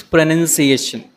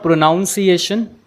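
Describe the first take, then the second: First: Pronunciation with a short NUN in the middle; correct pronunciation. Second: Pronunciation with a NOUN in the middle; wrong pronunciation. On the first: Teacher gives students the right form, correctly pronounced pronunciation. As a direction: say pronunciation as pruh-nun-see-ation. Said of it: "it is pronunciation". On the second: Teacher shows students the common mistake, mispronounced pronunciation. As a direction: say pronunciation as pro-NOUN-see-ation. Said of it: "it is not pronunciation". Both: Shown as a demonstration.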